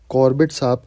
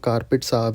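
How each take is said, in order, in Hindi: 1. यह नाम 'Corbett' की तरह बोला जाता है। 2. यह नाम 'Carpet' की तरह बोला जाता है।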